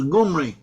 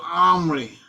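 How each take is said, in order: First: The name begins with a G sound. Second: The name begins directly with a vowel. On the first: This is how some Hebrew speakers may have said it. "so some of the Hebrews as Gumri" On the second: This is how the name is said in Hebrew. "The Omri in Hebrew is pronounced as Omri"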